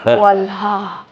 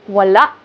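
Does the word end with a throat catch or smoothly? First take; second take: smoothly; throat catch. First: The final vowel ends smoothly without a catch. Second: The final vowel ends with a glottal catch. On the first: The speaker calls it wrong. "It's not wala" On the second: The speaker calls it right. "Because you put the glottal stop"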